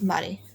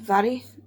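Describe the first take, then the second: First: The name begins with an M sound. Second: The name begins with a V sound. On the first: The speaker calls it wrong. "instead of Mary" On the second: The speaker calls it right. "the M H makes a V sound"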